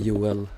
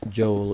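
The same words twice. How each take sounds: First: The name is pronounced the Swedish way. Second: The name is pronounced the English way. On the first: "we say Joel" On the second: "We don't say Joel in Sweden"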